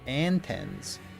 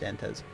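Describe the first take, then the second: First: The name is said with a second N sound. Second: The name is said without a second N sound. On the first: "pronounce the second N in your name" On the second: "No, just"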